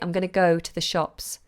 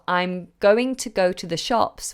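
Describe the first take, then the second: First: It is said quickly with the reduced form 'gonna'. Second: It is said carefully with 'going to' in full.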